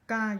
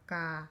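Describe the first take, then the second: First: The syllable is said with a high pitch. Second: The syllable is said with a falling pitch. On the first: "you have to go a little bit high with the pitch" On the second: "you have to go down. The tone is down"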